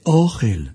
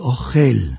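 First: The stress is on the first syllable. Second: The stress is on the last syllable. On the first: It means the food that is eaten. "אוכל מלאל" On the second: It means the person who eats. "אוכל מלרע"

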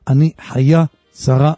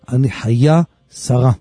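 First: The name is stressed on its last syllable. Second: The same.

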